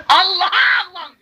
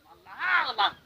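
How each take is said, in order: First: Urging shout. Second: Said in the usual way. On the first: Retold or imitated. Urging children to cry to God.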